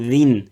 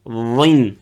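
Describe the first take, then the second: First: The first consonant is plain and light. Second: The first consonant is emphatic and heavy. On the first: The speaker calls it wrong. "donc c'est faux" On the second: The speaker calls it right. "Garde l'emphatique"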